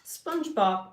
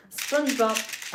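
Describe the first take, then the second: First: Poetry read. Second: Higher, loud, very slow SpongeBob; hammed-up spoken-word SpongeBob; dramatic poetry read. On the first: Pretend. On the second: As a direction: declaim SpongeBob slowly like a poet. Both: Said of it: "I'm doing live poetry".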